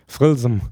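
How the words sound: It is pronounced in a contracted Palatinate form.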